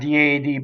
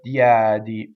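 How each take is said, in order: First: The stressed e is a closed vowel. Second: The stressed e is an open vowel. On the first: The speaker calls it wrong. "Not diadi" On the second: The speaker calls it right. "but diadi. Open open e on the stress"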